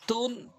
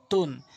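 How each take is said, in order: First: তুন with a round-mouthed heavy t; dark t in তুন, lips round. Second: তুন with a light, wider-mouthed t; thin t in তুন; spread light t. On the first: Teacher drills two letters, heavy round তুন. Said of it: "তটা মুখ একটু বেশি গোল". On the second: Teacher drills two letters, light spread তুন. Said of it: "তাটা মুখ একটু ওসার". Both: Shown as a demonstration.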